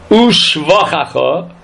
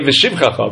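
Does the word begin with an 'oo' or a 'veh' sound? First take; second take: oo; veh. First: The word begins with an 'oo' sound. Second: The word begins with a 'veh' sound. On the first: The speaker calls it right. "the Vav is a kubutz, and underneath the shin, there should be a shva" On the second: The speaker calls it wrong. "we say Veshivchacha"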